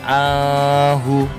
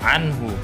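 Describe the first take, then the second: First: The n sound is blurred, not clearly pronounced. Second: The n sound is pronounced clearly. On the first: The speaker calls it wrong. "nggak boleh dibaca" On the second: The speaker calls it right. "anhu dibaca jelas"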